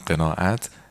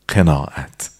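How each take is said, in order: First: It is said with a standard Persian qaf. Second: It is said with a Yazdi qaf. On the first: "فارسیش میشه همین قناعت" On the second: "یزدیش هم میشه قناعت که اونا میگن"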